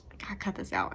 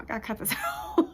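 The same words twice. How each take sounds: First: Much softer, muttering to herself; muttered self-scolding. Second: Fast, much higher, breaking into laughter; laughing at herself. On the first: Telling herself to stop crying, muttered softly. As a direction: scold yourself under your breath. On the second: Mocking her own crying, laughing high and fast. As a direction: let the line dissolve into a laugh. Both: Retold or imitated. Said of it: "And then it's like".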